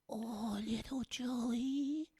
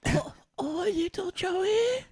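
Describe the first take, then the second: First: Slow breathy granny whisper; whispered grandma. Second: Put-on slow, high old granny call; high grandma voice. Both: Shown as a demonstration. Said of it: "Do a grandma".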